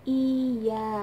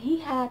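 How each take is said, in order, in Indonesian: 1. Kata ini dimulai dengan vokal biasa. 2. Kata ini dimulai dengan bunyi h. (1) "tapi iya" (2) "kalau ngomong iya tuh jangan hiha"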